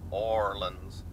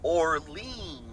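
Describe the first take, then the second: First: Orleans is said the local way. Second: Orleans is said the non-local way. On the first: The speaker calls it right. "it would just be Orleans" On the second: The speaker calls it wrong. "Not Orleans"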